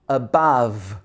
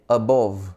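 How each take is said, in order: First: The main vowel sounds like 'ah'. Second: The main vowel sounds like 'oh'. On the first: The speaker calls it right. "it should be ah, ah" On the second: The speaker calls it wrong. "People might say above, but it's not. Oh"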